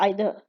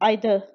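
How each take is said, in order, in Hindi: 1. यह ब्रिटिश उच्चारण में कहा गया है। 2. यह ब्रिटिश उच्चारण में कहा गया है।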